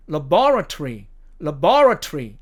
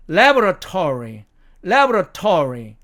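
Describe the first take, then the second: First: Laboratory stressed on the second syllable, la-BOR-atory; British laboratory, punched on BOR with a short -tory. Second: Laboratory stressed on the first syllable, LAB-ra-tory; American laboratory, punched on LAB with a full -tory. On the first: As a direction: say luh-BOR-uh-tree, British style. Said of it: "이 말을 영국식". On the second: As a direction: say LAB-ruh-tor-ee, American style. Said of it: "미국식 액센트로 읽으면". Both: Shown as a demonstration.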